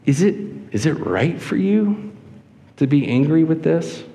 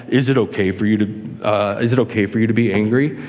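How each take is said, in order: First: Gentle, questioning inflection, a little higher; empathetic question. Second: Lightly voiced deep divine question, only a little booming; bad James Earl Jones impersonation. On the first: Acted. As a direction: ask it with care, unhurried and rising. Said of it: "a level of empathy and a level of emotion in what he says". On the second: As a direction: attempt at a deep, booming voice of God, slightly lowered. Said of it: "imagine, like, James Earl Jones speaking, like, in this deep, like, booming voice".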